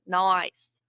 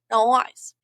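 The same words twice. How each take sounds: First: "nice" stretched out slowly; slow demo of "nice" with a gliding vowel; bent vowel. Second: "nice" as a loud "noice"; Aussie "noice" for "nice"; bent vowel. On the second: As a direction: bend "nice" towards "noice", punched louder. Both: Shown as a demonstration. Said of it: "multiple vowel sounds in one".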